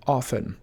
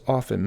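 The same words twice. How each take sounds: First: Often with a silent t, OFF-en; correct pronunciation. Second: Often with the t sounded, OFF-ten; common mispronunciation. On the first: Teacher showing viewers the right way. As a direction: say often without the t. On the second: Teacher showing viewers the wrong way. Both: Shown as a demonstration. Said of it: "often mispronounced as often".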